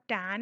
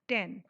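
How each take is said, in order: First: The vowel is long and open, like in 'tan'. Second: The vowel is short, like in 'ten'. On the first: The speaker calls it wrong. "टैन नहीं बोलेंगे" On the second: The speaker calls it right. "छोटी sound लगा के बोलेंगे"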